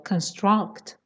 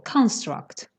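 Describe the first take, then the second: First: The stress is on the second syllable. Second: The stress is on the first syllable. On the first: It is used as a verb. "If it's a verb, the stress is on the second syllable" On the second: It is used as a noun. "if you want to say it as a noun, then the stress is on the first syllable"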